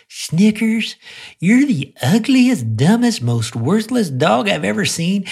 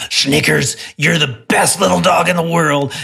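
First: High, cooing voice full of affection; sweet loving tone. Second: Gruff, louder scolding tone; scowling. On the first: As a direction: coo the insults like sweet nothings to the dog. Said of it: "as long as I said it with love". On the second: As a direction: growl the compliment like a reprimand. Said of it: "I could scowl and say". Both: Retold or imitated.

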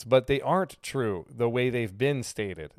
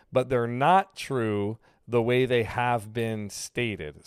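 First: Said in the usual way. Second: Slow, deliberate restatement. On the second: Shown as a demonstration. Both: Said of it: "like I just did right there".

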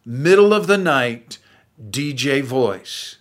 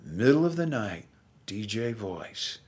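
First: Said in the usual way. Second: Late night DJ voice. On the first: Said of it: "That low, middle of the night D J voice". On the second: Shown as a demonstration. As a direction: drop into a hushed radio croon. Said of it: "That low".

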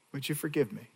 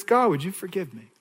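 First: Softly repeated prayer, much softer; quiet plea. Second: Said in the usual way. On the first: Shown as a demonstration. Preacher repeating David's prayer to God, soft and hushed. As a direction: let it fall to a hushed plea.

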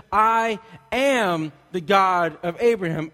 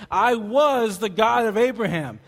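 First: "am" stretched long and loud; slow right down on "I am", hitting "am"; emphatic, drawn-out "am" as the true word; stress on "am". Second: "was" drawn out, high and loud; slow, raised voice punching "was"; stress on "was". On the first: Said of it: "He's not saying, he says". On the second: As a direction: lean hard on "was" as the wrong word. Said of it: "he did not say". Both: Acted.

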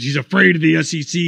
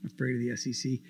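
First: Quoted claim with a rising, louder push on "afraid"; quoting critics. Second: Much softer, lower mock repeat of "Afraid of the S E C"; scornful mutter. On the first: Retold or imitated. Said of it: "People say". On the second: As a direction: toss "Afraid" away under your breath in disbelief. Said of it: "It's ridiculous".

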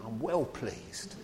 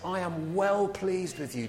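First: Slow, light Cockney take on God's words; lightly voiced Cockney, drawing out "well pleased"; cockney accent. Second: Said in the usual way. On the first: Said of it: "Makes God sound like a cockney". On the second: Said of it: "But I love that phrase".

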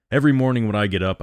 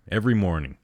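First: A touch of breaking, louder and rushed; mildly cracking voice, hurried. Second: Said in the usual way. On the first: A narrator's reading. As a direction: rush it as the voice cracks. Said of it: "His voice broke for a moment".

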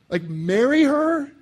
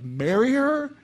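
First: Much higher, louder, slow incredulous squeal; hammed-up horror at marrying a widow; mock shriek of disbelief. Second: Sermon listener playing a shocked single; mock disbelief. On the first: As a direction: shriek it like the idea is absurd. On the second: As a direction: question pitched higher and louder in mock shock. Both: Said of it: "You'd be like".

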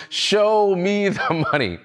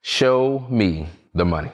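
First: High, drawn-out mock yell, no real volume; mock scream. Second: Said in the usual way. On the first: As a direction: stretch it out like an imitation of screaming. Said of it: "screaming at the top of his lungs". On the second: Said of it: "says simply four words".

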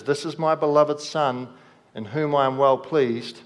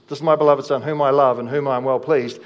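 First: Said in the usual way. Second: Declared louder, falling on each phrase; louder proclamation. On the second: Shown as a demonstration. Preacher proclaiming God's words to the congregation, louder. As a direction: proclaim it so the hall hears. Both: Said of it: "the same voice that speaks over Jesus".

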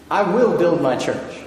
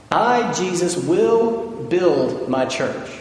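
First: "will" hit firmly, steady pace; stress on will. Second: Slow quote leaning on "will build my church"; stress on will. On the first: Firm "I will build my church". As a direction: pastor repeats the promise to his church, stressing "will". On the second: Drawn-out "will", each word weighted. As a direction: pastor reads Jesus' words to his congregation, slowing right down and punching "will". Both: Shown as a demonstration. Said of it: "But note what he says here".

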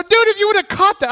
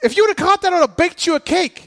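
First: High, loud and fast call; screaming from the dugout. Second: High, loud coach's shout; screaming from the dugout. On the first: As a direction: yell it across the field. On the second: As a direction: holler it across the diamond. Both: Retold or imitated. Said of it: "I'm screaming this from the dugout".

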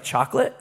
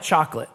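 First: "Chocolate" rising high at the end, as a question; questioning guess. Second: Said in the usual way. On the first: Retold or imitated. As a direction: imitate a wife guessing "Chocolate", lifting the end. Wife guesses, imitated as a question.

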